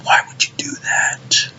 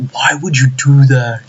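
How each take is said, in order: First: Slow, hushed whisper of dismay; despairing whisper. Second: Slow, drawn-out lament; exasperated. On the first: Fan still lamenting the removed punch, despairing whisper. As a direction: whisper it slowly, drained. Same lament, now unvoiced. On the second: Fan lamenting the removed one-inch punch, exasperated. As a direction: stretch the words in dismay. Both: Real, not acted.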